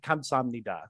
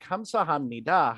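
First: The word is said at a fast pace. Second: The word is said at a slow pace. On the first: "usually people say it very quickly" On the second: "If you say it slowly"

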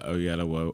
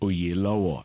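First: The name is said with an English-style pronunciation. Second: The name is said with a Yoruba pronunciation.

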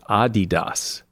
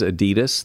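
First: The stress falls on the first syllable. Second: The stress falls on the second syllable. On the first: The speaker calls it right. "it's actually pronounced Adidas" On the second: The speaker calls it wrong. "Everybody says Adidas"

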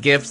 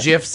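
First: The word begins with a hard G sound. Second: The word begins with a soft G sound.

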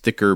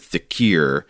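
First: It is said as two syllables, like thick-er. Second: It has an added ee sound, like thick-ee-er. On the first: This is the pronunciation the speaker had heard before. "I've heard it pronounced thicker before" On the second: This is the pronunciation given in the letter's guide. "he says to pronounce it thickier"

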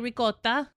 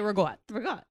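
First: It is said with an Italian pronunciation. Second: It is said with a New Jersey pronunciation. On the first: This is how Italians say it. "Italians will say ricotta" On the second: This is how locals say it. "but we say ragotta"

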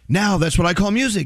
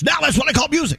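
First: It is read in a plain, normal voice. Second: It is read in a big, hyped announcer voice. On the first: "So I'm like" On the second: "They wanted me to read it like this"

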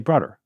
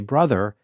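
First: It is said in an old Bronx or Queens accent. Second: It is said in a plain, general American accent. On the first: "They would say brother" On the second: "the way I would say brother"

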